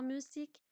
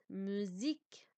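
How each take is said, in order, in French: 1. La consonne du milieu est un son s. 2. La consonne du milieu est un son z. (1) "je ne dis pas musique" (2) "Devient Z"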